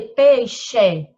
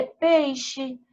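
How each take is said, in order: First: PEIXE as "pei-XÊ", loud full E at the end; questioning "pei-xê?"; wrong final E. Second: PEIXE said "PEI-xi", final E weakened to I; everyday "pei-xi"; natural final I sound. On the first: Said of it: "Não". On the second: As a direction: stress PEI and soften the ending of peixe to "xi". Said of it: "A gente lê peixe". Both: Shown as a demonstration.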